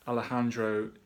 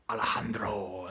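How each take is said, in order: First: The name is said plainly, without extra force. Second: The name is said forcefully, with dramatic flair. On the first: "that's how I say it" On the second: "they really give it some"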